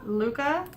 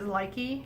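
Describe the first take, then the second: First: It is said with an oo vowel, like Luca. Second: It is said with an eye vowel, like Likey. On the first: This is the technically correct pronunciation. "technically it's pronounced the way Huga is pronounced" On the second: This is how most people say it. "everybody says Likey"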